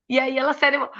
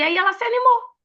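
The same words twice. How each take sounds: First: Said in the usual way. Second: Jumps way up in pitch on animou, bubbly; excited. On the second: Shown as a demonstration. Retelling how the pastor perked up, squeaky high and excited. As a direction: lift the whole line high and eager.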